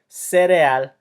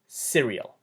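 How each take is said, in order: First: The word is pronounced with Spanish sounds. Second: The word is pronounced with English sounds. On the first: "you don't say things the same way in Spanish and in English" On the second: "you don't say things the same way in Spanish and in English"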